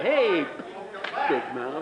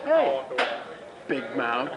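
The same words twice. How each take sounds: First: Retold taunt, lightly acted; imitating a taunt. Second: Mock taunting call, pitched up; imitating a taunt. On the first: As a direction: tease like a schoolyard heckler. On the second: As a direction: playfully mimic someone jeering. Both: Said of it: "'Cause he went".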